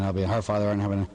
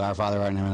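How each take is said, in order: First: Fast, gabbling the prayer by rote; rattled-off prayer. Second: Said in the usual way. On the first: Retold or imitated. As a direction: rush through it like a chore. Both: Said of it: "say these prayers really, really fast".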